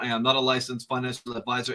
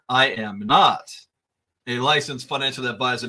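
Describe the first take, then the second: First: The sentence is spoken at a normal pace. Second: The sentence is spoken slowly and deliberately.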